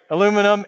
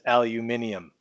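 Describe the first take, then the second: First: The word is said with four syllables. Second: The word is said with five syllables. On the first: The speaker calls it right. "I'm going to say it that way" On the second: The speaker calls it wrong. "supposed to be written and pronounced as aluminium"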